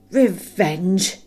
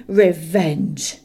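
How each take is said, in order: First: Loud scornful snort of "Revenge!" rising. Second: "Revenge!" loud and falling, final; dragon's scorn. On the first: Smaug mocking Bilbo's word, loud rising snort. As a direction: spit "Revenge!" back mockingly with a rise. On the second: Smaug dismissing Bilbo's threat, loud falling scorn. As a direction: drop "Revenge!" like a verdict. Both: A narrator's reading. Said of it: "he snorted".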